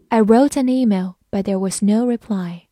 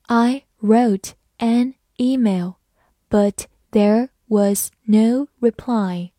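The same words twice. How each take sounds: First: Said in the usual way. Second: Slow, careful word-by-word read. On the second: Shown as a demonstration. Teacher reading slowly for students. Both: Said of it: "慢慢来读".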